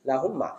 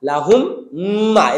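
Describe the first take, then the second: First: The m sounds merge into one nasalized m. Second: Both m sounds are pronounced separately. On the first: The speaker calls it right. "এখন আমরা বলবো" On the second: The speaker calls it wrong. "এরকম ছিল"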